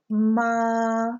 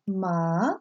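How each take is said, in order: First: The pitch stays level and is held. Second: The pitch rises like a question. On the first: "the first tone, you almost say it like someone singing a pitch in a choir. You just kind of hold it" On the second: "Second tone is raised up like a question"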